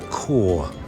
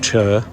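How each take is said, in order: First: It starts with a 'k' sound, like 'core'. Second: It starts with a 'ch' sound, like 'church'. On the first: The speaker calls it right. "Helen thinks it's Core" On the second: The speaker calls it wrong. "It's not Chur"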